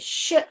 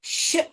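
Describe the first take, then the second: First: A single hushing sh sound is heard. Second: A single hushing sh sound is heard.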